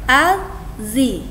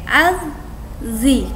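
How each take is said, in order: No difference in how they are said.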